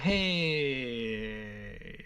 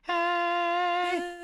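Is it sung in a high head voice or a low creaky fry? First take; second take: creaky fry; head voice. First: It is in a low, creaky fry register. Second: It is in a high, light head voice.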